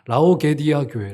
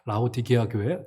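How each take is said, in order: First: The middle syllables come out as ge then di. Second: The middle syllables come out as di then ge. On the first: The speaker calls it wrong. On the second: The speaker calls it right.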